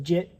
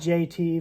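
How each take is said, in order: First: It is said as one short word. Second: It is said as two separate letters. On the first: The speaker calls it wrong. "it goes Jit" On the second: The speaker calls it right. "you put J T for a kid a guy's name"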